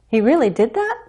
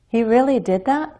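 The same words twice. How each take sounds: First: The voice rises strongly at the end. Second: The voice rises slightly at the end. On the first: The speaker is more doubtful or uncertain. "A stronger rise can express more doubt or more uncertainty" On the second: The speaker wants confirmation. "we use rising intonation to turn a basic statement into a question"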